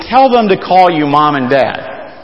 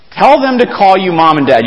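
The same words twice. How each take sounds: First: Said in the usual way. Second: "Tell them to call you Mom and Dad" said higher, with a punched "Tell"; emphatic repeat. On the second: Shown as a demonstration. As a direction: hammer home "Tell" at the start. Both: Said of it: "repeated for emphasis".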